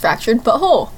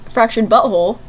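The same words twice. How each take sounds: First: The stress falls on the second part, whole. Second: The stress falls on the first part, butt. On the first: The name is heard as 'but whole'. The speaker calls it right. "It's Fractured Butthole. ... Whole. W-H-O-L-E. ... In the emphasis" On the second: The name is heard as a rude word. The speaker calls it wrong. "it's not Fractured Butthole"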